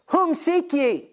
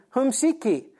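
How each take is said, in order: First: Higher, slow, solemn question as Jesus. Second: Said in the usual way. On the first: Acted. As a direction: ask it slowly like a calm, commanding Jesus. Jesus faces the arresting soldiers.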